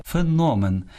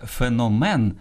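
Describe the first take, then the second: First: Феномен stressed on НО, higher; stress on middle syllable. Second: Феномен stressed on МЕН, slow; end-stressed феномен; wrong last-syllable stress. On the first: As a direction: say фе-НО-мен. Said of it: "А правильно казати". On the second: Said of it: "На мен падає наголос". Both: Shown as a demonstration.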